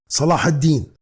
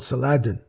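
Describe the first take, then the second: First: The name is said as Arabic Salah ad-Din. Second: The name is said as the anglicized Saladin. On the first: The speaker calls it right. "The correct pronunciation is Salah ad-Din" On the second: The speaker calls it wrong. "the non-Arabs who use the word Saladin"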